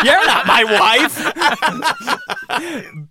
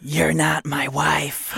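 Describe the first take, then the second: First: High and laughing through the words. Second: Slow, drawn-out ghostly line; unearthly voice. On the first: Real, not acted. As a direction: crack up while saying it. Repeated while laughing. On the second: Pretend. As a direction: stretch it out like a ghost.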